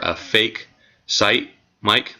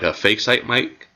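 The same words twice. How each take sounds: First: It is said more slowly. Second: It is said at a normal, quicker pace.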